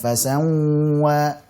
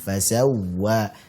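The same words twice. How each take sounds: First: The sound goes through the nose. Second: The sound flows from the lips, not nasal. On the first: The speaker calls it wrong. "Jangan sampai masuk hidung, jangan fasawwa" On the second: The speaker calls it right. "Dialirkannya suaranya"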